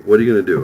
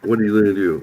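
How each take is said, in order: First: Pushing it harder and louder; louder taunting "What are you gonna do?"; louder challenge. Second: Said in the usual way. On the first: Retold or imitated. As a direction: repeat the dare, louder this time. Her challenge repeated louder.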